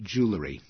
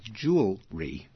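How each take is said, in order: First: The L comes before the middle vowel: jew-le-ry. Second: The L follows the middle vowel: jew-el-ry.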